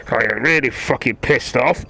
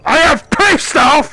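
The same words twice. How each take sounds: First: Said in the usual way. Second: Very high, loud, slow yell of real anger; explode, stretching each word out; pissed-off shout. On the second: Real, not acted. Gamer announcing he is really pissed off, furious shout.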